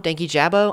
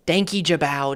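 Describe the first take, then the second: First: Said in the usual way. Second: British-style vowel on the end of "Danky Jabbo"; British attempt. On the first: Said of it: "I don't know how to say it". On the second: Shown as a demonstration. YouTuber testing how to say an unfamiliar name, tentative British pronunciation. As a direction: try "Danky Jabbo" British, last syllable like "bow". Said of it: "it sounds too British for me".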